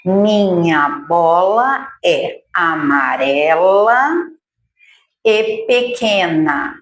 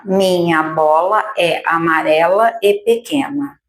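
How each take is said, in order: First: Slow sentence with each word set apart; slow dictation. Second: Said in the usual way. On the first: Shown as a demonstration. Teacher dictating a new sentence slowly for children. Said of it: "Vamos lá". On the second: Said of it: "tá?".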